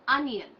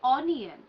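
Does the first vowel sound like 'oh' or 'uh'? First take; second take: uh; oh. First: The first vowel sounds like 'uh'. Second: The first vowel sounds like 'oh'. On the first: The speaker calls it right. "This is the right sound" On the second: The speaker calls it wrong. "most people would mispronounce this word as onion"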